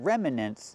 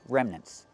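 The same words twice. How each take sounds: First: The word is said with three syllables. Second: The word is said with two syllables. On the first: The speaker calls it wrong. "It's not three" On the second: The speaker calls it right. "it's two"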